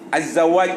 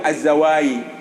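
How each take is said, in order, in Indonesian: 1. Diakhiri dengan bunyi j. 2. Diakhiri dengan bunyi y. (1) "Maka dia mengatakan az-zawaj itu" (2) "Hadramut saya katakan jim itu menjadi ya"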